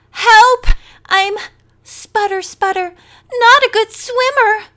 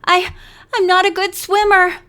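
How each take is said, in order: First: High, loud hammed-up cry for help; mock Maggie's panic, overdone; mocking desperate cry. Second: Frightened gasping plea; desperate sputtering. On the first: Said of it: "imitating Maggie's desperate cry". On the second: A narrator's reading. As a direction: sputter it out in real panic. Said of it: "she sputtered desperately".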